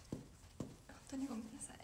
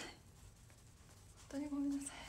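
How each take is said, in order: First: A hushed, breathy repeat of the sorry; whispered apology. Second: Said in the usual way. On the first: Real, not acted. Streamer whispering sorry to viewers for the morning. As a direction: whisper the apology again as if confiding.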